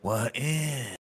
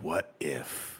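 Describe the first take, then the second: First: The voice rises at the end. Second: The voice falls at the end.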